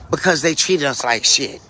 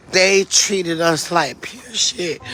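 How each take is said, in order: First: Said in the usual way. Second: Very slow, weighted "They treated us like pure shit"; emphatic restatement. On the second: Real, not acted. Telling viewers about the funeral, slow and emphatic on "pure". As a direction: drag out each word, leaning hard on "pure".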